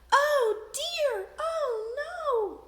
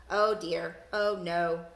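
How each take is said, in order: First: Much higher, louder panicky robot voice; much higher, loud frightened robot; scared robot. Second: A hint of a robot, louder; lightly voiced robot fretting. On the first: Acted. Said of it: "The robot was so scared". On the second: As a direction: say it like a worried machine. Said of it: "I gotta say that in my robot voice".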